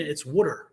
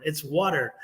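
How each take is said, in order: First: Water said as wooter, rounded oo; West Virginia water. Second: Water said with a broad aw, wawter; the proper water with an open aw; standard water. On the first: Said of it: "in West Virginia". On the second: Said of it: "learn how to say water properly". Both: Shown as a demonstration.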